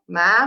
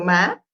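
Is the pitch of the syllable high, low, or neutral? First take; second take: high; neutral. First: The syllable is said with a high pitch. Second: The syllable is said with a neutral pitch. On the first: It means mom. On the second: It marks a question.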